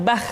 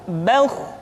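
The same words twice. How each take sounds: First: "bah" with thin open a before kh; thin kha, mistaken. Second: "bauh" with thick, rounded vowel before kh; thick kha. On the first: Teacher showing what to avoid, thin sound. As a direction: keep the vowel in "bah" thin and unrounded. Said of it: "tidak bah". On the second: Teacher showing the heavy letter, thick sound. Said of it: "dengan suara yang tebal". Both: Shown as a demonstration.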